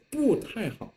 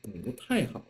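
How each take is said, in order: First: 不 falling sharply, as written, before 太好; 不太好 with fourth-tone 不. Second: 不 rising before falling 太; 不太好 with second-tone 不; 不 changed to second tone. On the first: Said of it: "it's clearly written the fourth tone". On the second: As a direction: lift 不 upward, then let 太 fall. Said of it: "Instead of 不太好". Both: Shown as a demonstration.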